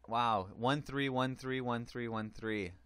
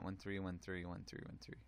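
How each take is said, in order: First: Said in the usual way. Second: Much softer, fast rattled-off numbers; fast mumbled repeat. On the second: Real, not acted. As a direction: mumble it fast under your breath. Mocks own repetition.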